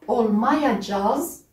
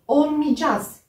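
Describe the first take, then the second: First: Every sound of the spelling is pronounced. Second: The ending is said in a shortened form. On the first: "on l'a écrit olmayacağız" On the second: "mais on le prononce olmayacağız"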